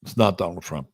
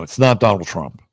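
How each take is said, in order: First: It's not Donald Trump said softer, not falling; soft, settled echo of the denial; quieter repeat. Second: Not hit with a falling tune; firm denial, weight on not; stress on not. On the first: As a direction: drop the voice and repeat it. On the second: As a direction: insist it's not him. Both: Real, not acted. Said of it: "I can tell you right now".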